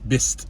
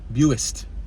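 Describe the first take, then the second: First: The u is silent in the name. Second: The u is pronounced in the name. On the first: "You can just say use silent to say Bist" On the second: "But to me it's Buist"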